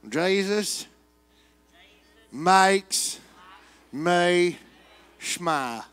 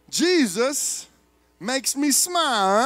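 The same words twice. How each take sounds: First: It is said in a Western twang. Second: It is said in a New York accent.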